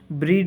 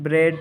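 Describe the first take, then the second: First: The vowel is a long ee sound. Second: The vowel is a short e sound. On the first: The speaker calls it wrong. "ब्रीड नहीं" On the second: The speaker calls it right. "बल्कि ब्रेड पढ़ेंगे"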